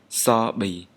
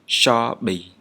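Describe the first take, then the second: First: The first consonant is an 's' sound. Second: The first consonant is an 'sh' sound. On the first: This is how people normally say it in the dialects. "pronounce the letter sh like the letter s" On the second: This is the standard pronunciation. "This sounds exactly like shoe or shop in English"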